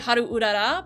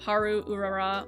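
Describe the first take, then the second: First: The name is said with a Japanese accent. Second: The name is said with an English accent. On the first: The speaker calls it right. "when I'm saying it properly" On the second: The speaker calls it wrong. "it sounds stupid when I say it without the accent"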